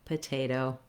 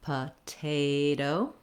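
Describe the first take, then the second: First: The word is said at medium speed. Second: The word is said slowly.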